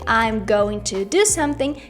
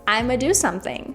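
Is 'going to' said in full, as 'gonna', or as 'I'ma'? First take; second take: full; I'ma. First: Every word is said fully as 'going to'. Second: 'I'm going to' is reduced to 'I'ma'. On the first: "instead of saying I'm going to do something" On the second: "you can also say I'ma"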